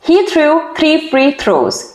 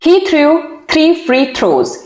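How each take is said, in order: The two takes are said the same way.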